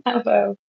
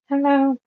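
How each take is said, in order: First: Said in the usual way. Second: Voice crack. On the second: Real, not acted. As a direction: voice cracking on the greeting. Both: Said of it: "Voice crack again".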